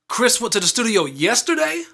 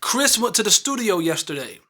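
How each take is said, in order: First: The word yesterday is given strong stress. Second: The word yesterday is not given extra stress. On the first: It asks a question. "I'm stressing yesterday, which makes that sentence become a question" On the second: It states a fact. "This sentence is stating an absolute fact"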